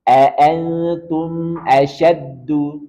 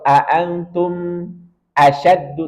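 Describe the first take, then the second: First: The mim flows briefly into the next word. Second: The mim is cut off before the next word. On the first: The speaker calls it right. "Tapi tetap kita alirkan" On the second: The speaker calls it wrong. "Jangan kita potong"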